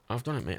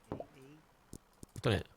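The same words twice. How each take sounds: First: Said in the usual way. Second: Slow, soft murmur to yourself; slow soft aside. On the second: Pretend. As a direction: breathe the line out slowly. Soft slow repeat of the line.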